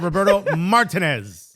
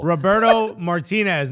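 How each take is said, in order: First: The name is said with English pronunciation. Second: The name is said with Spanish pronunciation. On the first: The speaker calls it wrong. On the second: The speaker calls it right.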